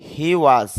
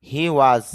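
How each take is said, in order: The two takes are said the same way.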